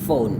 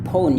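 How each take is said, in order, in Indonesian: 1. Kata ini diawali dengan bunyi f. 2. Kata ini diawali dengan bunyi p. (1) "P dengan H ini bunyinya menjadi F ya" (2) "jangan bilang phone ya"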